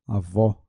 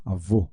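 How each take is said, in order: First: Avó with an open o at the end; open final vowel. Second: Avô with a closed o at the end; closed final vowel. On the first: Teacher confirming an open sound, open-o Avó. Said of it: "som aberto". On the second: Teacher correcting to a closed sound, closed-o Avô. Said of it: "então som fechado". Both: Shown as a demonstration.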